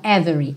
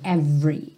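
First: The middle vowel is pronounced as a full syllable. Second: The middle vowel is dropped, giving two syllables. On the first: The speaker calls it wrong. "você não pronuncia o E do meio, ok? Every, não every" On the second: The speaker calls it right. "você não pronuncia o E do meio"

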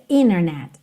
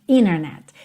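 The two takes are said the same way.

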